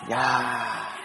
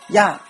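First: The word is said lightly and softly. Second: The word is said heavily and forcefully. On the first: It expresses surprise, like wow. "我用刚才我这种语气读出来的话呢，它表示哇呀这么一种感觉" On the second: It is an impolite way to address someone. "那如果你读得重一点"

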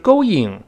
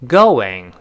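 First: The word has no w-like glide before -ing. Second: The word has a w-like glide before -ing. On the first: The speaker calls it wrong. "所以不是going，不要这么读" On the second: The speaker calls it right. "是going 加一个w 拼到一块"

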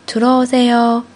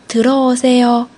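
The two takes are said the same way.

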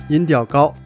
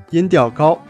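The two takes are said the same way.

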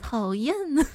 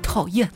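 First: It sounds sweet, playful and coquettish. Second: It sounds plainly annoyed, not playful.

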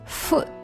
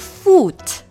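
First: The vowel is short, like 'u' in put. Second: The vowel is long, like 'oo' in food. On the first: The speaker calls it right. "它是foot" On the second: The speaker calls it wrong. "它不是foot"

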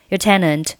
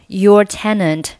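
First: The word 'your' is weakened and reduced. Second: The word 'your' is said in its full form. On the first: The speaker calls it right. "而是读your tenant" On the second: The speaker calls it wrong. "你不需要读作your tenant"

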